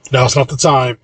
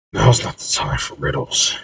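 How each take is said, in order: First: Brisk, firm cut-in at usual volume; interrupting. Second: Soft, breathy grumble; muttering. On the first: Corey stopping Maverna's argument, interrupting firmly. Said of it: "Corey interrupts Maverna". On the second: Corey reading a riddle on the wall, muttering to himself. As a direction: mutter it under your breath. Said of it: "he then mutters". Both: A narrator's reading.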